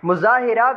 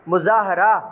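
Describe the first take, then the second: First: The vowel before the last syllable is i. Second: The vowel before the last syllable is a. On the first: The speaker calls it wrong. "गलत है" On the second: The speaker calls it right. "इसी तर्ज पे पढ़ने हैं"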